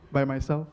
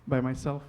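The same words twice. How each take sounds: The two takes are said the same way.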